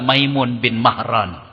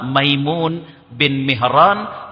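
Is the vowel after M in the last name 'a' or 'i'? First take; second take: a; i. First: The last name's first vowel sounds like a. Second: The last name's first vowel sounds like i. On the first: "atau dibaca juga" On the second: "yang bernama Maimun bin Mihran"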